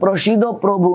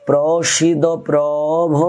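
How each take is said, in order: First: The last word ends in a 'u' vowel. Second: The last word ends in an 'o' vowel. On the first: It simply names a lord. The speaker calls it wrong. "আমরা অনেকে বলি প্রসিদ্ধ প্রভু, না" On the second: It addresses the lord of all lords. The speaker calls it right. "আর এটা হলো প্রভ"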